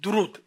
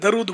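First: The first vowel is a 'u' sound. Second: The first vowel is not a 'u' sound. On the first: The speaker calls it right. "درود دال پر پیش ہے" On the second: The speaker calls it wrong. "لوگ درود بولتے ہیں"

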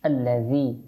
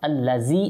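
First: The middle consonant is a soft th sound. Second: The middle consonant is a buzzing z sound. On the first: The speaker calls it right. "এখানে জাল" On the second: The speaker calls it wrong. "আল্লাযী হবে না"

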